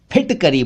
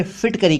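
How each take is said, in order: First: फिटकरी as "p-hitkari"; aspirated ph. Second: फिटकरी as "fitkari"; mispronounced ph as f. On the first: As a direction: pop the lips starting फिटकरी. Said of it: "फिटकरी बोला करें". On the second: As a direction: start फिटकरी with a soft f. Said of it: "गलत उच्चारण है". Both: Shown as a demonstration.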